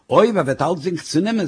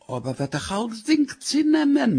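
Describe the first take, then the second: First: Mild, reasoning retort; unfazed husband's comeback; dismissive echo. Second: Very high wail of protest; wailing worry, pitched far up; alarmed wife. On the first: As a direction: toss the worry back at the speaker. Husband throws her words back. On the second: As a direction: plead in a high, panicky voice. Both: Acted.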